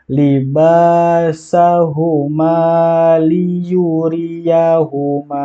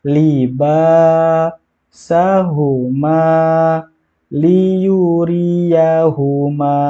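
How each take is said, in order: First: It is read smoothly without pauses. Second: It is read in separate pieces with pauses. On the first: "Kalau mau lanjut silahkan" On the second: "itu yang putus-putus"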